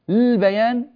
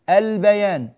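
First: The word starts directly with the consonant l. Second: The word starts with a glottal stop and vowel a. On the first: The speaker calls it wrong. "هل يمكننا أن نقول البيان؟ مش ممكن، هذا غير جائز" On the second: The speaker calls it right. "فنأتي بالهمزة ونقول البيان"

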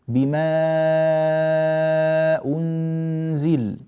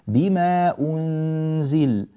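First: The vowel before the hamza is held very long. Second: The vowel before the hamza is kept short. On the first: It follows the reading of Warsh. "بهذه الطريقة فنأتي بالإشباع" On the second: It follows one option in the reading of Qalun. "القصر في هذه الكلمات كأمثلة يكون هكذا"

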